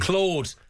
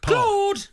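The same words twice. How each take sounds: First: It is said in a normal speaking voice. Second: It is shouted in a high-pitched voice.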